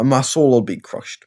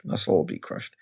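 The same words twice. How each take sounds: First: Said in the usual way. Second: Whispered, much softer; hushed mock heartbreak; mock despairing whisper. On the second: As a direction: breathe it out like a defeated fan. Mock lament, whispered echo.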